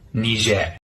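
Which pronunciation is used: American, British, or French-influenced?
French-influenced. It is said the French-influenced local way. "from the local language, which is heavily influenced by the French"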